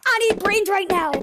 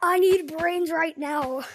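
First: Excited zombie voice. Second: Zombie voice. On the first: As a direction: bark it out like an eager zombie. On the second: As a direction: drag it out like a hungry zombie. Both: Retold or imitated. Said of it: "Why do you say brains?".

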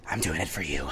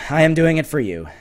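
First: Very low, soft murmur; hushed aside. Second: "am" stressed in a normal-volume voice. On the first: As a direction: say it almost to yourself, way down low. Repeated line, first take hushed. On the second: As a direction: insist by leaning on the word "am". Repeated with stress on am. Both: Real, not acted.

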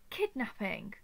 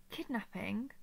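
First: "Kidnapping" falling away at the end; dismissive fall. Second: "Kidnapping" low, lifting into a question; questioning rise. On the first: Captor rejecting the captive's accusation, dismissive fall. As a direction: throw out "Kidnapping" with a downward tune. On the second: Captor repeating the captive's accusation, questioning rise. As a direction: echo "Kidnapping" with a rising end. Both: Acted.

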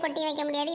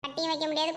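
First: கொட்டி said mockingly in place of கட்டி, echoing the groom's slip; mocking mispronunciation. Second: Said in the usual way. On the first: Shown as a demonstration. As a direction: mimic the groom's wrong கொட்டி with a teasing edge. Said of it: "கொட்டி வைங்க".

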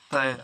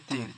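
First: Said in the usual way. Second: तीर with a long "ee" instead of "ai"; variant vowel. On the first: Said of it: "और दूसरी अरबी आती है". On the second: Shown as a demonstration. Teacher giving Arabic learners the other form, तीर with long "ee". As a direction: say तीर, rhyming with English "tear" of crying. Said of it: "दूसरी अरबी आती है तीर".

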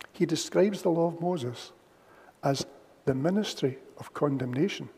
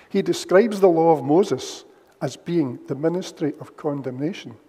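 First: Softer, with a pause before "the ministry of condemnation"; emphasized repeat. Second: Said in the usual way. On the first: Shown as a demonstration. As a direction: lean on "ministry" and set "the law of Moses" apart with pauses. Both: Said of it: "And I would emphasize that".

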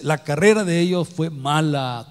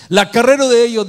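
First: Said in the usual way. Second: Loud and high, as if crying out; loud emphasis. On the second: Acted. Preacher crying out the prophet's words to the church, loud and high. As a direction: throw the phrase out to the congregation.

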